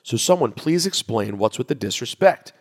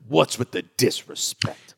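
First: Said in the usual way. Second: Slow, drawn-out sports-debate outrage, lightly done; Stephen A voice. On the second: Retold or imitated. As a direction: stretch out the disrespect like a TV pundit. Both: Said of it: "Stephen A voice".

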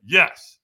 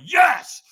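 First: Loud single yes, only half let loose; compliant shout. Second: Very high, loud yell; all-out shout. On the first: Firewalker answering the trainer's order, compliant shout. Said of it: "And I went". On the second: Firewalker told to be stronger, all-out shout. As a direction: let the yes rip far harder. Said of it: "And so I went". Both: Retold or imitated.

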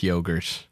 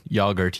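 First: Yogurt with a long O, like "yoe-gurt". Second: Yogurt with a short O, like "yah-gurt". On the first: Asking which yogurt he says, long O. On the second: Asking which yogurt he says, short O. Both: Shown as a demonstration.

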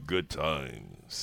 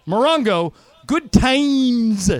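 First: Booming PA announcer, deep. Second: "good times" punched high and loud; "Morongo" steady, then "good times" pitched up and loud; hyped promo read. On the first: Pretend. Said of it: "do it from the voice of God". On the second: Shown as a demonstration. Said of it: "you say it like this".

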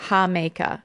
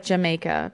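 First: JAMAICA with H for J, "ha-MAY-ka"; Spanish pronunciation. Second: JAMAICA with English J, "juh-MAY-ka"; spelling pronunciation. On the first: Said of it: "but it's pronounced". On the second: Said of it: "It's spelled like Jamaica". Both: Shown as a demonstration.

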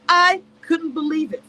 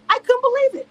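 First: Said in the usual way. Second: Shocked disbelief. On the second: Real, not acted.

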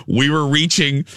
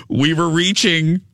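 No difference in how they are said.

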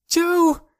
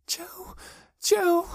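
First: Very high, loud call; desperate cry. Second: Very high, thin whimper. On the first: Girl calls for missing Joe, desperate cry. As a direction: call out for someone lost. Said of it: "she cried". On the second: Girl shaking with terror over missing Joe, whimper. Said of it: "she whimpered". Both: A narrator's reading.

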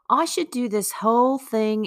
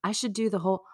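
First: Put-on higher-pitched, amateurish English accent; mock English accent. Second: Said in the usual way. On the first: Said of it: "in an English accent". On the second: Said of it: "I should do this whole thing in an English accent".

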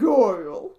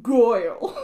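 First: "Goyle" drawled out, louder, falling; a flat drag queen "Goyle" with a falling end. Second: "Goyle" drawled out loud, laughing; drag queen "Goyle". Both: Retold or imitated. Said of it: "that makes you sound like a drag queen".

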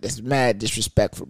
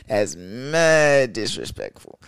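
First: Said in the usual way. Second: "That's mad disrespectful" stretched out slowly, leaning on "mad"; slow emphatic repeat. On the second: Shown as a demonstration. Repeating the line slowly to the crowd, emphatic. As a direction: drag it out to hammer it home. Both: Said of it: "repeats it slowly".

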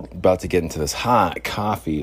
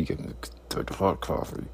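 First: Said in the usual way. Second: Breathy whisper. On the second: Acted. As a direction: whisper it to yourself. Whispered repeat.

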